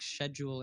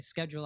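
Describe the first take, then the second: First: It is said with a British pronunciation. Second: It is said with an American pronunciation. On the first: "some British people might say like schedule" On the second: "in the U S we'd say schedule"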